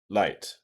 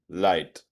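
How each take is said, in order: First: The word begins with an L sound. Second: The word begins with an L sound.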